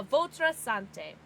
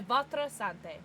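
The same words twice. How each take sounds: First: "votre sante" drawn out slowly, each syllable careful; hesitant learner French. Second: "Votre sante" said at normal speed, a little more settled; second try at French; quicker French. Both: Shown as a demonstration. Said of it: "Am I saying that right?".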